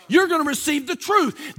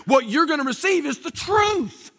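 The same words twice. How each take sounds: First: Emphatic repeat. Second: Said in the usual way. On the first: Real, not acted. Pastor pressing the promise on his congregation, emphatic. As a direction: drive it home, raise the voice on it.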